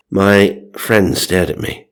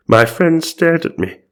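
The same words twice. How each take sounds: First: Said in the usual way. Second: High, hammed-up narrator voice; theatrical mock wonder; dramatic retake. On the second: A narrator's reading. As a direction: pitch it up like an astonished storyteller. Retake in the character's voice.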